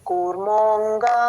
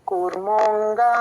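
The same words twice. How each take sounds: The two takes are said the same way.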